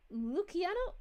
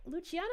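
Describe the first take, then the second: First: Luciano with a hard K, "loo-kee-AH-no"; unsure "Luciano", saying the c as k; tentative hard-C Luciano; mispronounced name. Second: Self-corrected Luciano, Italian ch sound; corrected pronunciation. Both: Real, not acted. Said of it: "how I pronounced that".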